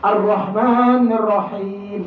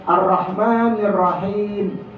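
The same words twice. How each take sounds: First: "Ar-Rahmanir Rahim" slow with a full round ro; drawn-out model reading, "Ar-Rahmanir" as "ar-rohmanir"; correct ro sound. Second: "Ar-Rahmanir Rahim" with a light ra as in Latin; wrong thin ra. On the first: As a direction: teach the heavy ro in "Ar-Rahmanir". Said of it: "fathahnya ro, bukan ra". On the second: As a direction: show the error: "Ar-Rahmanir" read flat with ra. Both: Shown as a demonstration.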